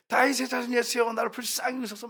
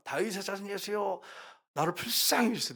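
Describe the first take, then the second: First: Cried out much higher, pleading; mock shouted appeal, pitched up; retold desperate cry. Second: A mild, half-voiced plea rather than a real shout; first cry to Jesus, held back; retold pleading cry. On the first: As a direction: push the plea up high as she chases him. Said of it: "막 소리를 지르잖아요". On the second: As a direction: let the woman's cry start small, pleading. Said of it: "나와가지고 외칩니다".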